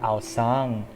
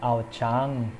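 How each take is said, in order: First: The second syllable begins with an s sound. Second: The second syllable begins with a ch sound. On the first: The speaker calls it right. "it's supposed to be pronounced as Mount Aosang" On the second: The speaker calls it wrong. "and not actually uh, not Mount uh, Aochang"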